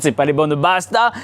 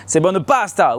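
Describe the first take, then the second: First: "pasta" said with a b, as "basta"; wrong pronunciation. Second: "pasta" with a clear p; corrected pronunciation. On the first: Grandson correcting grandfather's Italian, repeating the faulty "basta" for "pasta". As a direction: quote the faulty "les bonnes pasta", sounding like "basta". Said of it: "papy, je te raconte, c'est pas". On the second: Grandson teaching grandfather, "pasta" said with a proper p. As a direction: pronounce "pasta" firmly, crisp p at the start. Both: Acted.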